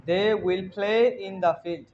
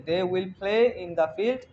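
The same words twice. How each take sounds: First: Slow, word by word model; slow model sentence. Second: Slow model with a rising end; slow repeat. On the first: Teacher modelling the translation slowly for the class. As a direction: lay it down slowly for the learners. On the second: Teacher repeating the model sentence slowly for the class. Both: Shown as a demonstration.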